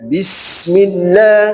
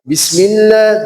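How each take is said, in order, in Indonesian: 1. Bunyi s-nya dipanjangkan. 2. Bunyi s-nya dipendekkan. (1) "sinnya diteruskan" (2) "Tidak dibaca Bismillah, tidak, tapi kurang"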